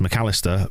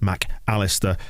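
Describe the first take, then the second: First: The name is said smoothly without any pause. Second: There is a pause between Mac and Alistair. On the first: "apparently pronounced McAllister" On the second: "can't help but pause between Mac and Alistair like I just did"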